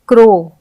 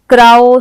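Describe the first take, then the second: First: The vowel is said like 'oh' in go. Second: The vowel is said like 'ow' in cow. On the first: The speaker calls it right. "हम इसे ओ के उच्चारण से पढ़ेंगे" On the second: The speaker calls it wrong. "इसे हम राओ, क्राओ, साओ ये नहीं पढ़ेंगे"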